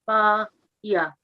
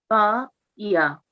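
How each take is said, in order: The two takes are said the same way.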